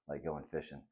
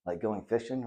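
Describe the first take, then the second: First: Low, soft fatherly agreement; smiling confirmation. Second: Put-on higher boy's voice, "fishing" rising as a question; eager question. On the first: Dad confirms his son's guess, low and gently smiling. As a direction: confirm it softly with a smile, "fishing" settling low. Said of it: "his dad says and smiles". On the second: Boy asks his dad about the idea, higher questioning voice. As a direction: ask it, lifting "fishing" high. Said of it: "Ralphie asks". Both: A narrator's reading.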